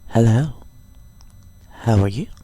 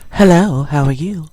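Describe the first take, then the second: First: It is said in a relaxed, casual home voice. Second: It is said in a polished, formal phone voice.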